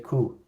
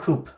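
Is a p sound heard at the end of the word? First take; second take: no; yes. First: The word ends without any p sound. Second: The word ends with an audible p sound. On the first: The speaker calls it right. "We say coup. ... we don't pronounce the p" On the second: The speaker calls it wrong. "we don't say coupe"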